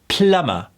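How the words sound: The final R is relaxed, British-sounding. The speaker calls it wrong. "the R's are usually a little too relaxed, like how the Brits would say it"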